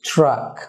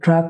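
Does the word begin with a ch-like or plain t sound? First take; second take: ch-like; plain t. First: It begins with a ch-like sound. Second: It begins with a plain t sound. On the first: The speaker calls it right. "এটার উচ্চারণ হবে ট্রাক" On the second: The speaker calls it wrong. "ট্রাক উচ্চারণ হবে না"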